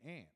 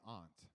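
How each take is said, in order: First: It is said with a western 'ant' vowel. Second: It is said with an East Coast 'ahnt' vowel.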